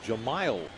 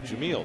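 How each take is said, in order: First: The name ends with a 'mile' sound. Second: The name ends with a 'meel' sound. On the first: The speaker calls it right. "His name is Jahmile Weeks" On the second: The speaker calls it wrong. "That is incorrect"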